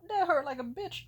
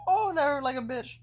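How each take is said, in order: First: High, loud crying complaint; pained whimper. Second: Louder, higher crying repeat; pained wail. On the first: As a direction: wail the pain out. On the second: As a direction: moan it again through tears. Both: Retold or imitated. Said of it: "as I was saying".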